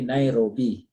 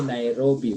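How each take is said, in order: First: "Nairobi" sweetened the French way; French-style pronunciation of "Nairobi"; French-accented Nairobi. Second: Plain local pronunciation of "Nairobi"; "Nairobi" without French colouring; English-style Nairobi. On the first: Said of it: "you add some sugar". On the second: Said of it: "like you don't say Nairobi". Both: Shown as a demonstration.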